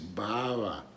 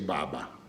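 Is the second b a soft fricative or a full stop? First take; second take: soft fricative; full stop. First: The second b is soft, lips left slightly open. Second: The second b is a full stop, lips closed. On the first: It sounds like Spanish. The speaker calls it right. "I leave a little slit" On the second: It sounds like English. The speaker calls it wrong. "it's not correct to say Baba"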